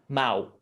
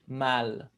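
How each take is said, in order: First: The final L is pronounced as a U. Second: The final L is pronounced as an L. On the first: "in Brazil, we don't. So we turn the L into a uh, U sound" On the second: "in European Portuguese, they pronounce the L"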